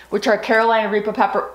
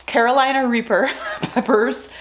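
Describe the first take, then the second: First: Talking around gum; words slurred by gum in mouth; chewing gum. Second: Said in the usual way. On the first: Real, not acted. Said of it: "I have gum in my mouth". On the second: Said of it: "I'm gonna take that out".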